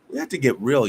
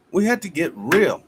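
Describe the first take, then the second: First: Said in the usual way. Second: "We have to get real." higher and louder, hitting "have"; forceful restated plea; emphatic plea. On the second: Real, not acted. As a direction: make it a demand. Repeats the plea more strongly.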